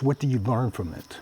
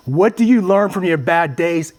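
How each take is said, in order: First: Asked low and soft, almost to himself; hushed, reflective asking; quiet question. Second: "you" pressed, put out to the room; challenging the audience directly; emphatic question. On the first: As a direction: murmur the question inward. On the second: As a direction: ask it outward with weight on "you". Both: Shown as a demonstration.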